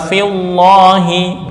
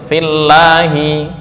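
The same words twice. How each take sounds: First: The L of lahi sounds heavy and thick. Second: The L of lahi sounds light and thin. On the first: The speaker calls it wrong. "enggak boleh dibaca" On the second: The speaker calls it right.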